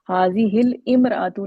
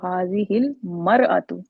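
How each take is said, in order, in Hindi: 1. 'hil' के बाद 'mra' से पहले का स्वर रहता है। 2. 'hil' के बाद 'mra' से पहले का स्वर गिर जाता है। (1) "नहीं पढ़ा" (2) "इसका अलिफ ड्रॉप हो जाता है"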